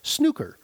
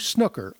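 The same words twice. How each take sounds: First: The word has the English pronunciation. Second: The word has a non-English pronunciation. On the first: The speaker calls it right. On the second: The speaker calls it wrong.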